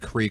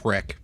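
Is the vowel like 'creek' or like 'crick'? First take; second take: creek; crick. First: The word has a long 'ee' vowel. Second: The word has a short 'i' vowel.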